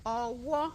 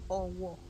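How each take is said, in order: First: The second syllable is higher than the first. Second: Both syllables stay on the same low pitch. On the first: A hand. "re, mi" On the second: A town in Yoruba land. "do, do"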